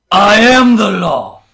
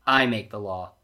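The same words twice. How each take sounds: First: Booming, drawn-out lawman's declaration; Judge Dredd. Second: Said in the usual way. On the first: Acted. Reader sneaking in a movie impression, booming lawman. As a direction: bellow it slowly, high and very loud. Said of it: "had to do my quick Judge Dredd". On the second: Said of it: "he growls".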